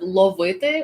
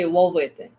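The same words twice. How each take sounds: First: The first consonant is a clear L sound. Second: The first consonant sounds like a W. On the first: The speaker calls it right. "Instead of ловити" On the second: The speaker calls it wrong. "instead of your L's, you say W"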